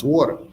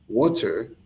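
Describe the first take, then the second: First: Said in the usual way. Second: "Water" in careful proper English, t sounded; proper English pronunciation. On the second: Shown as a demonstration. Showing the proper way to pronounce it, careful "Water". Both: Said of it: "is the proper way to pronounce".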